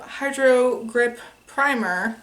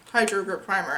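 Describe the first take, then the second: First: "Hydro Grip Primer" slowed, as if asking; said like a question. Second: Said in the usual way. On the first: Real, not acted. Vlogger unsure while naming the product, "Hydro Grip Primer" said like a question. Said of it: "I said it like a question". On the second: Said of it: "I don't know why I just said it like that".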